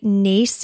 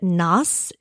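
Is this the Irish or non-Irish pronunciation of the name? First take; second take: Irish; non-Irish. First: The name is pronounced the Irish way. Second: The name is pronounced the non-Irish way. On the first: "Naas is the Irish way to pronounce it" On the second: "Nas is like the non-Irish way to pronounce it"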